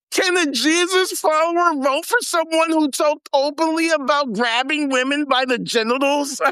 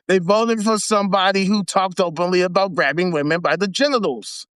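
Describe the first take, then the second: First: Higher, incredulous reading voice; mocking read. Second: Said in the usual way. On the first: Shown as a demonstration. Reading the article aloud to viewers, mocking and higher. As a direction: read it out as if it's absurd. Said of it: "I gotta read this". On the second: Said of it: "restates the line plainly".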